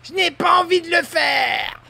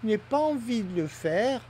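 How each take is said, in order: First: It is said in an angry, hostile tone. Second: It is said in a calm, neutral tone.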